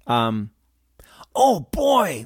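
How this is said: It sounds delighted and positive. The speaker is pleased by what they see. "a nice sense of positivity or satisfaction"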